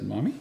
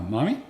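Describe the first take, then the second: First: Said in the usual way. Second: Retold bright, rising Mommy? the way a mother models it; cheerful model. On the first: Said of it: "And he, he said". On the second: Mother modelling a cheerful Mommy? for her toddler, retold lightly. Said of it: "this is the voice inflection I want you to use".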